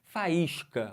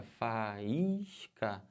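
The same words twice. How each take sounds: First: Said in the usual way. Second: Faísca drawn out, Fa-ís-ca separated; syllables split. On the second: Shown as a demonstration. Teacher showing students the hiatus in Faísca. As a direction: lean on the stressed í. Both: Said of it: "Olha pra palavra faísca".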